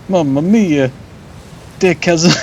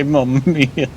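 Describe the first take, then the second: First: Hammed-up higher Italian accent, "Mamma mia" sung out with "mia" falling. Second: Lightly mocked Italian "Mamma mia", falling on "mia"; a hint of a stage Italian, "mia" dropping. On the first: Streamer lampoons the Italian port-town kid, hammed-up Italian accent. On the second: Streamer jokes about the Italian port-town kid, light Italian accent. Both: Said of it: "Surprised he didn't say".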